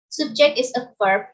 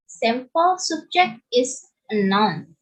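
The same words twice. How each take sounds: First: "subject" stressed on the second syllable, sub-JECT. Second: "subject" stressed on the first syllable, SUB-ject. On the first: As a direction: say "subject" as a verb, pushing the JECT. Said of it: "to the second change the word's". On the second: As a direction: say "subject" as a noun, with the weight on SUB. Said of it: "to change of stress from the first syllable in the word subject". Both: Shown as a demonstration.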